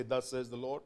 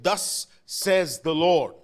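First: Said in the usual way. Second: Slow, loud prophetic declaration. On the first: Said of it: "Everybody say". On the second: Shown as a demonstration. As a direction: proclaim it like a prophet. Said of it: "say it like a prophet would say it".

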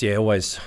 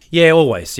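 First: Said in the usual way. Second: Emphatic. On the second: Real, not acted. Emphatic first answer.

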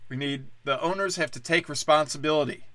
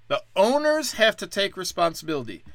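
First: Said in the usual way. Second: Higher, pompous mock outrage; mock preachy pundit. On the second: Comic mocks commentators blaming owners, pompous tone. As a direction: parrot the pundits with mock righteousness. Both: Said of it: "all anyone's saying is".

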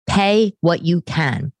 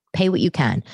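First: "Pay what you can" slow and louder, each word pressed, "Pay" hit hardest; emphatic correction. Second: Said in the usual way. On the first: Real, not acted. Correcting her slip for viewers, slow firm emphasis on "Pay what you can". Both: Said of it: "I'm sorry, not pay as you go".

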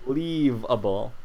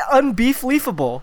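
First: Unbeefleavable with a v, beef-leave-able; sounding out words. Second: Unbeefleafable with a double leaf sound, beef-leaf-able; sounding out words. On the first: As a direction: say unbeefleavable with a v not an f. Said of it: "that's a double leaf". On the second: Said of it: "That's not what it's supposed to be". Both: Shown as a demonstration.

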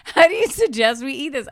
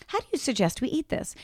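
First: Higher question, falling at the end; fuller-voiced retold question; imitating husband asking. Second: Soft, slightly higher question; softly spoken rising question; understated catchphrase. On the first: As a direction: deliver the catchphrase out to someone. Acts out Dan asking waiter. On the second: Shown as a demonstration. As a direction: ask it quietly, voice lifting at the end. Demonstrates the family catchphrase.

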